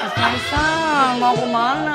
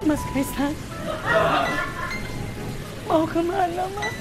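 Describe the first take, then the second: First: It is said in a longing, missing-you tone. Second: It is said in a sad tone.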